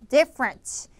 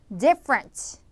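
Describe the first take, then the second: The two takes are said the same way.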